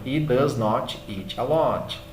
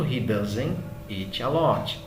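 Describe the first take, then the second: First: Does not is said as two full words. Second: Does not is contracted, with no final t. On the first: This is the formal way. "a maneira formal que é does not" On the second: This is the everyday way. "no dia a dia você vai ver muito doesn't"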